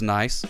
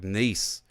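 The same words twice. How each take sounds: First: The vowel sounds like the one in 'rice'. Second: The vowel sounds like the one in 'piece'. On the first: It means pleasant. The speaker calls it wrong. "I didn't say it right" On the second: It names the town in France. The speaker calls it right. "they pronounce it like Nice"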